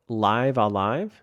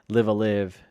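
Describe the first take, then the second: First: The title is said as two words, 'live alive'. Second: The title is said as three separate words. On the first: The speaker calls it right. "is it Live Alive? Is that how you actually say that?" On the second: The speaker calls it wrong. "I've been saying it wrong this entire time"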